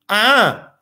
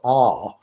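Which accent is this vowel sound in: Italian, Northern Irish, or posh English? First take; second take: Northern Irish; posh English. First: A sharper vowel with more bite, Northern Irish style. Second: A long, smooth vowel in a posh English accent. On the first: "an Irishy kind of Northern Irish thing, which of course got much more bite in it" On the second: "an English person saying R with a nice posh long R"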